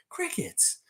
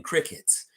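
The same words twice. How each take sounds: First: Crickets in a thin falsetto, much higher and softer; mocking squeak. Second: Breathy whisper of the word Crickets. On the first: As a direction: squeak out Crickets like a tiny echo. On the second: Acted. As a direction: say Crickets under your breath. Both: Repeated word, two ways.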